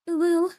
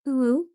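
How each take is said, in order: First: It is said in a higher pitched voice. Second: It is said in the normal pitched voice.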